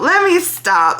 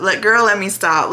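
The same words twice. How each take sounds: First: Much higher and louder; laughing self-interruption. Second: Said in the usual way. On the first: Real, not acted. Catching herself craving a cigarette, she cuts herself off with a laugh. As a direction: cut yourself off with a bright laugh.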